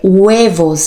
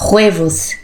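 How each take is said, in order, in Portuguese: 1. Começa com um som suave, parecido com w. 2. Começa com um som de h gutural e forte. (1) "É como se fosse um U" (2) "Não é huevos. Eu aprendi como o som do H, a gente falasse como se fosse um R"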